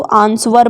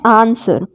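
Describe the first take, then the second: First: आंसर with the W sounded, "aans-war"; children's mispronunciation. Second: आंसर with silent W, "aan-ser"; correct pronunciation. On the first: Teacher quoting children's mistake, आंसर as "aans-war". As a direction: put a W after S in आंसर. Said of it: "आंसर गलत होता है". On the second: Teacher giving the fix, आंसर with no W. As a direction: drop the W in आंसर. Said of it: "गलत pronunciation है". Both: Shown as a demonstration.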